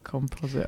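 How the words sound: It is pronounced the British way. "whereas we say"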